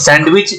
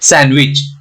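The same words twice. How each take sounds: First: The d sound is clearly pronounced. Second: The d sound is left silent. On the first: The speaker calls it wrong. "ये गलत pronunciation है" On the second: The speaker calls it right. "इसका सही pronunciation है सैंडविच। ... डी का pronunciation नहीं करते"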